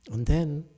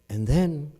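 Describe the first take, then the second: No difference in how they are said.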